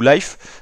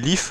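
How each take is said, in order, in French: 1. La voyelle est une diphtongue 'ai'. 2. La voyelle est un son 'ee' bref. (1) "ou Life" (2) "qu'on peut prononcer Lif"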